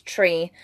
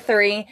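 First: Tree with a hard T for the TH of three. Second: Said in the usual way. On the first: Shown as a demonstration. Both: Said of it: "Instead of three, it's tree".

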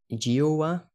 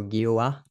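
First: Giowa with a soft G, like "joe-a"; soft-G pronunciation. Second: Giowa with a hard G, like "ghee-oh-a"; hard-G pronunciation. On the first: Podcaster guessing at an unfamiliar username, soft-G pronunciation. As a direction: say Giowa starting with a J sound, rising at the end. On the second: Podcaster offering the other reading of a username, hard-G pronunciation. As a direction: say Giowa starting with the G of "go". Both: Shown as a demonstration. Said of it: "I don't know how you wanna pronounce that".

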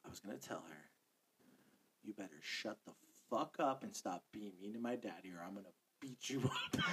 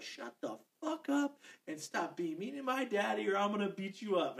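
First: Hushed, low imitated child's threat; retold stage whisper. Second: Mild mock yell, a bit higher; retold yell. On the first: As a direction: whisper it just loud enough to be heard. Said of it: "whisper loud enough for both me". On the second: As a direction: imitate a child's yell without full volume. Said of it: "she fucking yelled".

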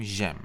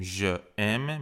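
First: "ژم" run together as one syllable, j'aime; "ژم" as one joined sound, zhem; elided. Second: "ژ ام" as two words, vowel kept before ام; "ژ ام" without any elision; two separate words. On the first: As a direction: drop the schwa and blend into "ژم". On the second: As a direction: say "ژ ام" unjoined, je then aime. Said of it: "به جای اینکه بگیم". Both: Shown as a demonstration.

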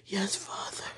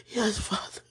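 First: Soft unvoiced whisper to God; whispered prayer. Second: Said in the usual way. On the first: Real, not acted. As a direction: breathe it as a prayer.

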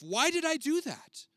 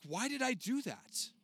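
First: Much higher and louder, slow; exasperated self-reproach. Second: Higher, slow, puzzled at yourself; frustrated self-talk. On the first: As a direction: cry it out at yourself in despair. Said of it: "How often have you said that to yourself?". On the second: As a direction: ask yourself in dismay. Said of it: "and you're like". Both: Retold or imitated.

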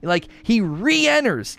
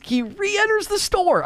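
First: Said in the usual way. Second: "re-enters" leapt way up high and drawn out slowly; excited high-voiced retelling of the comeback; high stretched emphasis. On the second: Shown as a demonstration. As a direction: throw the voice up high on "re-enters", slow and marveling.

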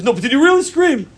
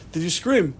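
First: "really" pitched high and louder; stress on really. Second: Said in the usual way. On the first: Retold or imitated. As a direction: press hard on the word "really". Rabbi presses the question, retold.

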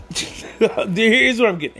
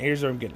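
First: Slower, higher, laughing as it comes out; laughing through it. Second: Said in the usual way. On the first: Shown as a demonstration. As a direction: giggle the words out, barely holding it together.

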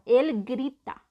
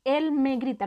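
First: "él grita" said slowly, without the me, weight on "él"; slow, deliberate "él grita" with a lift on "él"; stress on él. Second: Said in the usual way. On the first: Shown as a demonstration. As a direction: lean on "él" and drop the me in "él grita". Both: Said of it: "Quítale el me".

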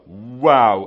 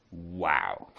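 First: Loud, drawn-out mock amazement; retold big wow. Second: Low, hushed mock amazement; retold quiet wow. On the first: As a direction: play up the scientists' amazement loudly. Retold amazement, repeated for effect. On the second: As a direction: imitate scientists marvelling in a low voice. Retold first reaction of scientists.

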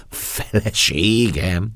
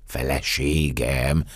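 First: Louder, higher, very drawn-out disbelief; escalating stunned question, swelling and rising; dazed astonishment. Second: Slow, dazed echo with a rising end; stunned, drawn-out question; stammered astonishment. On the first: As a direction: repeat it bigger, stretching the word in amazement. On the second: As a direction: repeat the word slowly, dumbfounded. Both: Acted. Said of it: "hebegtem káprázó szemmel".

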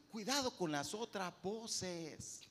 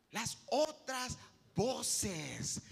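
First: Said in the usual way. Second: Slow emphatic repeat. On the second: Shown as a demonstration.

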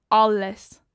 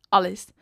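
First: "Alles." punched out louder, falling hard; emphatic repeat. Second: "Alles." repeated lower and less forceful; softer echo. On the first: Vlogger insisting she films everything, with "Alles." punched loud. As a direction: slam "Alles." as the clincher. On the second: Vlogger echoing "Alles." more softly after her first punch. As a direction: let "Alles." drop as an afterthought. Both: Real, not acted.

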